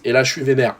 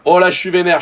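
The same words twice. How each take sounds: First: Said in the usual way. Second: Louder and higher, venting frustration; exasperated, louder "Oh, là, je suis vénère"; annoyed outburst. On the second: Shown as a demonstration. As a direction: let the anger out on "vénère".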